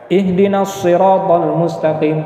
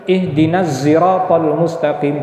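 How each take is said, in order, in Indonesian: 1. Siratal dimulai dengan bunyi s tebal. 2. Siratal dimulai dengan bunyi z. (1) "bisa dibaca huruf shad" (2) "bisa dibaca dengan huruf zai"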